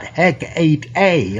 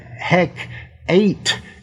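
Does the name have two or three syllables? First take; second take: three; two. First: The name is said with three syllables. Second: The name is said with two syllables. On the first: This is the usual, standard form. "like normal" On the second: This is the older, non-standard form used in the play. "is what Shakespeare is having people say"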